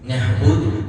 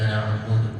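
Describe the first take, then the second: First: The consonant after 'na' is a breathy h. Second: The consonant after 'na' is a tight throat sound. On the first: The speaker calls it wrong. "ഹ ആയി മാറും. പ്രശ്നമാണ്" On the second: The speaker calls it right. "നന്നായി ശ്രദ്ധിക്കണം"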